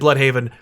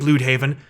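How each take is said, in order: First: The first vowel is the plain 'blood' sound. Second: The first vowel is a rounded umlaut u sound. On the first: The speaker calls it right. "it's meant to be said Bloodhaven" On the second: The speaker calls it wrong. "if you put an umlaut over the U, it does make a U sound"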